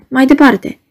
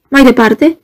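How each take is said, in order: First: Earnest plea. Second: Rising, eager Mai departe, pushed up at the end; eager question. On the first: Guest begging Ivan to continue, earnest plea. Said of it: "Te rog din suflet". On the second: Guest interrupting Ivan eagerly, rising question. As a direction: urge him on with a lifted Mai departe. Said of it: "exclamații". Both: A narrator's reading.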